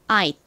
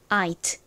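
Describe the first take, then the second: First: The final T is clipped short and quick. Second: The final T is released as its own syllable. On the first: "빠르게 발음을 할 때에는 T가 마치 받침처럼 소리가 들려서" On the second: "I가 가진 I 소리와 T가 가진 T 소리가 합쳐져서"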